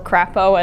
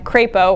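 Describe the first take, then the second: First: The name is said in a mocking, altered pronunciation. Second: The name is said in its ordinary pronunciation.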